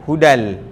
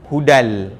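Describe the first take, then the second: No difference in how they are said.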